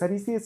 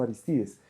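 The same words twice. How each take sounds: First: Aristides stressed on the third syllable, Aristídes; wrong stress. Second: Aristides stressed on the second syllable, Arístides; correct stress. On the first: Teacher demonstrating the misplaced accent on Aristides. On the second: Teacher correcting the student's accent on Aristides. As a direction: say Aristides with the accent on -ris-, the Spanish way. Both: Shown as a demonstration. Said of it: "el acento en español no es aquí".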